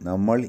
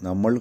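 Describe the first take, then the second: The two takes are said the same way.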